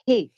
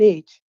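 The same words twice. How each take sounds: First: The letter is said with an initial h sound. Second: The letter is said without an initial h sound. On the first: This is how some speakers say it. "They say H" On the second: This is the usual way to say it. "they don't pronounce an H as an H"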